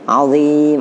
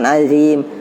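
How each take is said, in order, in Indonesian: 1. Bunyi z-nya tebal dan berat. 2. Bunyi z-nya biasa dan ringan. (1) "azim dan tebal" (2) "bukan azim"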